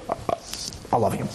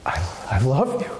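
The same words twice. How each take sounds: First: Softer, half-hearted mumble; mumbled by rote. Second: Mean every word of it; heartfelt. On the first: A spouse mumbles love by rote, quiet and flat. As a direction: mutter it like a chore. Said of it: "That's not love". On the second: To a spouse, saying I love you with tender sincerity. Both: Shown as a demonstration.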